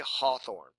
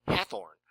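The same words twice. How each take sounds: First: "Hawthorne" with an open "aw" as in father. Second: Hathorne with a flat "hath" like path; Hathorne as spelled. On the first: Correcting students on the name, an open-aw Hawthorne. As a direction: give "Hawthorne" the broad aw vowel. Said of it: "it was pronounced Hawthorne". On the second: Reading the old spelling aloud to students, Hathorne with a flat a. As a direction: say "Hathorne" the way the letters read it. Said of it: "look at a name like H A T H O R N E". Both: Shown as a demonstration.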